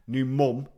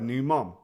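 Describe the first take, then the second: First: The word mum has a non-American vowel. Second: The word mom has an American vowel. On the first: "mum, not mom" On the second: "I'm saying it American"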